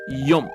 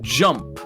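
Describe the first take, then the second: First: The word begins with a Y sound. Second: The word begins with a J sound.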